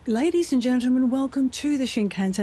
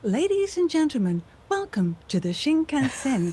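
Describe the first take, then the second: First: It is said in a plain, natural voice. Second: It is said in a put-on British voice. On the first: "can't we do it in a" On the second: "you have to do"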